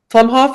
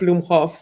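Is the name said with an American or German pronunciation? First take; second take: American; German. First: The name is said with an American pronunciation. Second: The name is said with a German pronunciation. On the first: This is the form the family uses in America. "Plumhoff is its Americanized version" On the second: This is the original family form, said with pride. "my grandpa would be saying Blumhoff with pride"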